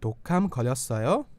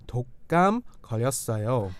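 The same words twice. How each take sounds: First: The voice rises at the end. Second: The voice falls at the end.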